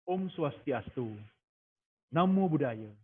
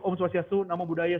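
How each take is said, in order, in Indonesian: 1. Ada jeda sebentar setelah setiap salam. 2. Salamnya diucapkan bersambung tanpa jeda. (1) "Berikan jeda sesaat untuk setidaknya orang menjawab" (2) "jangan begini"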